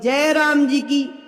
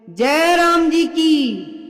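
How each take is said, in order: First: It is said at normal volume. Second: It is said loudly.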